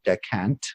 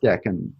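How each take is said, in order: First: The word ends with a t sound. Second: The word ends without a t sound. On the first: The speaker calls it wrong. "there's an astrologer who I love dearly who pronounces it decant" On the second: The speaker calls it right. "It's decan"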